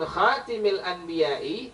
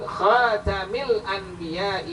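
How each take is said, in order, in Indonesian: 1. Vokal setelah bunyi t adalah i. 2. Vokal setelah bunyi t adalah a. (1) "kalau kita baca dengan kalimat kasrah taknya" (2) "menggunakan fathah taknya"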